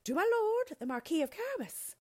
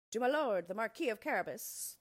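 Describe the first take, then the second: First: Very high, loud singsong call; chorus it out high and loud, like a drilled group; obedient chorus. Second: Higher, louder reply, lightly voiced; mowers answering together. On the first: Reapers answer the king as told, high obedient chorus. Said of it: "they chorused obediently". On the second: Scared mowers answer the king, raised dutiful reply. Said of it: "the mowers answered with one voice". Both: A narrator's reading.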